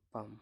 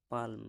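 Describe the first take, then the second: First: "পাম" with no L, as "paam"; silent L. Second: "পালম" with the L sounded before the M; L pronounced. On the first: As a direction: say "পাম" going straight from long A to M. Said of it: "এল উচ্চারণ হচ্ছে না". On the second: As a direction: say "পালম" as it is spelt, like "paalm". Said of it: "হতো". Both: Shown as a demonstration.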